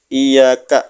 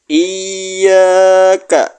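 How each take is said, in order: First: The y sound is short and not pressed. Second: The y sound is pressed and held doubled. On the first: The speaker calls it wrong. "Jangan sampai tidak ditekan" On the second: The speaker calls it right. "jadi ditekan ya"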